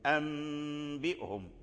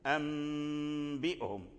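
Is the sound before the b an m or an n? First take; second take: m; m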